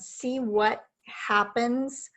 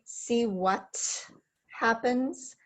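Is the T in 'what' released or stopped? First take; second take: stopped; released. First: The T in 'what' is a silent stop. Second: The T in 'what' is fully released. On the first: "I did position for the T and I turned my voice off" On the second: "That would be fully pronouncing that T"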